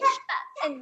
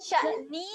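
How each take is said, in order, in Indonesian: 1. Kata itu berakhir dengan bunyi 'n' yang ringan. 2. Kata itu berakhir dengan vokal 'i' yang ditambahkan. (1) "tetapi sya'an" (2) "Dia bukan sya'ni"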